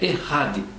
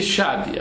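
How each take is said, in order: First: The middle consonant is a throaty rasping sound. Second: The middle consonant is read as spelled. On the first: "a pronúncia é correta é Errad" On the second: "a gente escreve Echad"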